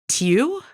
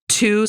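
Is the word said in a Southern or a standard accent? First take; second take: Southern; standard. First: The vowel is a fronted 'ew' sound. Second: The vowel is a plain 'oo' sound.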